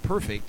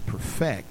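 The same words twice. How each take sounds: First: The stress is on the first syllable. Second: The stress is on the second syllable. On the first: Something is already flawless. "It's not perfect" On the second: Someone is doing the perfecting. "In other words, God's doing the perfecting"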